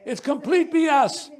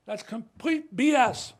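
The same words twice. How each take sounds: First: Louder, higher "B S" with a laugh; laughing dismissal. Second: "B S" said slowly with a falling tune; a slow, firm "B S"; flat dismissal. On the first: Telling the journalist again: a louder "B S" with a laugh. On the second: Telling the journalist the claim is false: a slow, firm "B S". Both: Real, not acted. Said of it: "restated louder with a laugh".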